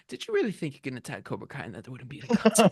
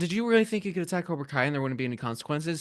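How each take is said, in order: First: It is said in a playful, joking tone. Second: It is said in a serious tone.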